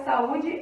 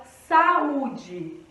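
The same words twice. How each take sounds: First: Said in the usual way. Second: SAÚDE slowly split, SA then stressed Ú-DE; saúde drawn out to show the hiatus; separated hiatus. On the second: Shown as a demonstration. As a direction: pull SA and Ú apart in saúde. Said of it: "A gente separa saúde assim".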